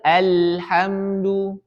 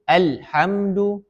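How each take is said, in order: First: The L sound is drawn out smoothly. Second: The L sound is cut off abruptly. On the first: The speaker calls it right. "Kita harus mengalirkannya" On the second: The speaker calls it wrong. "diputus, tidak ada alirannya"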